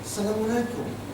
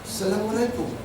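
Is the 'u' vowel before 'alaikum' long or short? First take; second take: short; short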